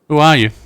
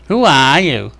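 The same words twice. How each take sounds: First: It is said in a normal voice. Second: It is said in an obnoxious mocking voice.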